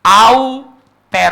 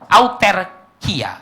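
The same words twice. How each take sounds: First: "Auterkia" drawn out very slowly and loud; Greek word. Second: "Auterkia" again very slowly, at normal volume; Greek word repeated. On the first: Preacher introducing the Greek word to congregation, "Auterkia" slow and booming. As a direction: proclaim "Auterkia" syllable by syllable, booming. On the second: Preacher repeating the Greek word for congregation, "Auterkia" slow and calm. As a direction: calmly repeat "Auterkia" slowly for them to catch. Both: Shown as a demonstration. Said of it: "dalam bahasa Yunani cuma satu kata".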